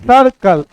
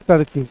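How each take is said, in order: First: The second syllable has a short neutral 'uh' vowel. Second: The second syllable has an 'ee'-like vowel. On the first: The speaker calls it right. "ऐसा होता है सर्कल" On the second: The speaker calls it wrong. "कुछ लोग सर्कल को सर्किल बोलते हैं"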